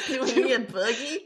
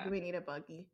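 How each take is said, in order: First: Louder, laughing, hammed-up Southern accent on "buggy"; mock country accent. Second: A natural Southern twang on "Do we need a buggy?"; country accent. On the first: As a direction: overplay the Southern country accent of the first take. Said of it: "I just get a really hard country accent". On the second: Real, not acted. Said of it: "Why did I say it like that?".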